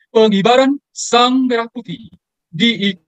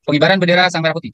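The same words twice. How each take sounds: First: "pengibaran" stretched slow and punched, higher and louder, the whole phrase drawn out; with ceremonial stress. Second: Said in the usual way. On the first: Shown as a demonstration. Teaching MCs how to announce the flag-raising: "pengibaran" slow, raised and emphatic. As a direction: lean hard on "pengibaran", say it slowly with weight, the rest of "Sang Merah Putih" held long and solemn. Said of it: "Tapi menggunakan tekanan".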